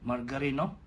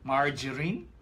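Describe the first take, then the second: First: It is said in a local Filipino accent. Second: It is said in an American accent.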